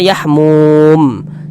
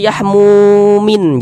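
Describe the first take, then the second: First: The word ends on a silent, unvowelled m. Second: The word ends with an added syllable 'in'. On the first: The reader stops at this word. The speaker calls it right. "kalau kita berwakaf di huruf mim kita baca yahmum" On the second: The reader carries on past the word. The speaker calls it wrong. "Jangan dibaca yahmumin"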